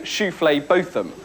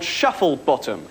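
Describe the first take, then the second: First: The name starts like shoofley, then Botham. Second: The name starts like the word shuffle. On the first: The owners' preferred, grander version of the name. "they will always insist on their name actually being Shoofley Botham" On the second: The name read as it is spelt. "there are people in the phone directory called Shufflebottom"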